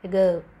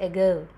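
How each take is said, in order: Both takes have the same delivery.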